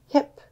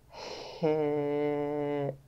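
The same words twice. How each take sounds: First: The word is said quickly as one whole word. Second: The word is stretched out slowly, sound by sound. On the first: "Now let's say it fast like a word" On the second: "Let's tap and stretch one more time"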